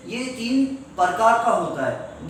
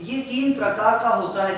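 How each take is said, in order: First: प्रकार said as par-kaar; mispronounced par. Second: प्रकार with p and r joined; correct pra cluster. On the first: Retold or imitated. Teacher imitating students who can't say pra, par-kaar for प्रकार. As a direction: put the vowel before the r in प्रकार, par-kaar. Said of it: "can't pronounce the pra sound properly". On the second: Shown as a demonstration. Teacher models the sentence, correct pr cluster in प्रकार. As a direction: say प्रकार with a clean PR onset. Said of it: "I say".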